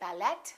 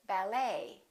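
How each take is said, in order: First: The final T sound is pronounced. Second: The final T sound is silent. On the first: The speaker calls it wrong. "We don't say ballet" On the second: The speaker calls it right. "the T is almost always silent"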